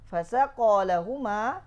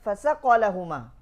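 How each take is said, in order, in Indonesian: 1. Vokal setelah 'saq' dibaca panjang. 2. Vokal setelah 'saq' dibaca pendek. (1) "Itu fasaqa itu maknanya apa? Memberikan ah air" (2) "fiskun, fasik, merusak mak makna"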